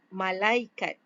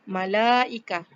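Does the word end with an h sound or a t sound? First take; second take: t sound; h sound. First: The word ends with a clear t sound. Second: The word ends with a soft h sound. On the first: This is the Malay pronunciation of the loanword. "dalam bahasa Melayu kita tetap panggil dia sebagai malaikat" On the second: This is the original Arabic pronunciation.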